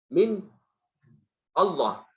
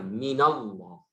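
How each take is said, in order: First: The n is left without a following vowel. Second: A vowel links the n smoothly into Allah. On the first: The speaker calls it wrong. "tidak bisa kita ucapkan. Coba baca" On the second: The speaker calls it right. "Jadi bacanya minallah"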